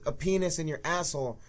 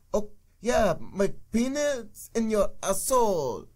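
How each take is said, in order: First: Said in the usual way. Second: Mocking Canadian accent, slow and higher; bad Canadian accent. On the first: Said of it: "it's just the accent". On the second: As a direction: ham up a fake Canadian accent. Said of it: "they do really bad Canadian accents".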